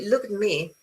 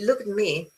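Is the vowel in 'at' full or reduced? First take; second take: reduced; reduced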